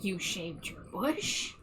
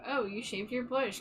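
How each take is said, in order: First: It sounds harsh and angry. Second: It sounds warm and supportive.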